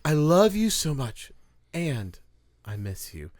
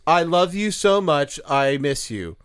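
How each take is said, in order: First: It is read with strong expressive inflection. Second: It is read flat, without expressive inflection.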